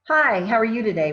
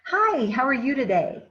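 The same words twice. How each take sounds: First: The greeting sounds cold and unfriendly. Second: The greeting sounds warm and friendly. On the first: The customer is not welcome. The speaker calls it wrong. "cross my arms" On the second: The customer is welcome. The speaker calls it right. "I can say something as simple as"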